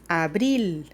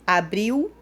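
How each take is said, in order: First: The final L sounds like a clear L. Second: The final L sounds like a U vowel. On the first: This is the Spanish way of saying it. The speaker calls it right. "en español hablamos abril" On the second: This is the Portuguese way of saying it. The speaker calls it wrong. "como si fuera una U al fin"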